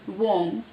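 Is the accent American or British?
British. It is said in a British accent, without r. "British, simple"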